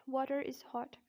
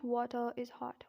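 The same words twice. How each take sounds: First: "Water is hot" with the R of Water sounded; linking R. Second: "water is hot" with no R at the end of water; dropped R. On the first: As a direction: run "Water" into "is" through a clear R. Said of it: "you'll have to pronounce this R then". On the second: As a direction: say "water" ending on a schwa before "is". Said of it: "not water is hot". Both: Shown as a demonstration.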